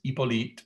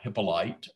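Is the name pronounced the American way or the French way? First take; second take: French; American. First: The name is pronounced the French way. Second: The name is pronounced the American way.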